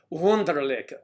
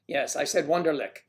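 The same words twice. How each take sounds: First: Wunderlich said higher and louder; spelled-out emphasis. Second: Said in the usual way. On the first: Shown as a demonstration. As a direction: lean on Wunderlich, the German Wunderlich. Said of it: "W U N D E R L I C K".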